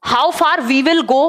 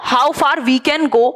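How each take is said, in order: First: Slow, with "will" as the prominent word; stress on will. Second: Slow, with "can" as the prominent word; stress on can. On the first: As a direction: lean on "will" in a measured teaching phrase. Teacher contrasts will with can. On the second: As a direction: lean on "can" in a measured teaching phrase. Teacher contrasts can with will. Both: Shown as a demonstration.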